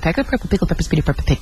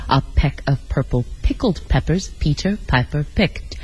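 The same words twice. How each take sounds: First: It is said extremely fast. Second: It is said slowly, word by word.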